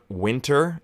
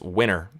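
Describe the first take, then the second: First: The T is clearly pronounced. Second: The T is dropped, Canadian style.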